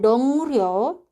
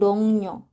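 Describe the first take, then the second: First: The middle consonant is pronounced as an R. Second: The middle consonant is pronounced as an N. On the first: The speaker calls it wrong. "Bukan dongryo" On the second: The speaker calls it right. "tapi dongnyo"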